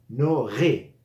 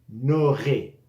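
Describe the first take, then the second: The two takes are said the same way.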